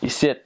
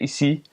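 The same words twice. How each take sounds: First: It is said the Quebec way, ending in T. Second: It is said the French way, ending in a vowel.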